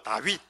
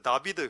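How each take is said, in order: First: The name is said the Korean way, 'Dawit'. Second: The name is said the Hebrew way, 'Dabideu'. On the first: The speaker calls it wrong. "발음이 한국 발음이" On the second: The speaker calls it right. "히브리어로 다윗이 다비드입니다"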